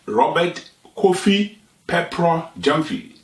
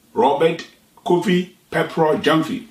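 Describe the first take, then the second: No difference in how they are said.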